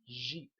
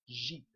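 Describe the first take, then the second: No difference in how they are said.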